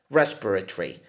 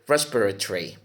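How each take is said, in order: Both takes have the same delivery.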